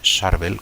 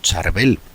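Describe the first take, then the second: First: The name is pronounced the original Lebanese way. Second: The name is pronounced the usual Spanish way. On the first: This is how the name is said in its place of origin. "en su origen es propiamente Charbel, como lo llaman eh, los libaneses" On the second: This is how people here commonly say it. "a veces lo pronunciamos como"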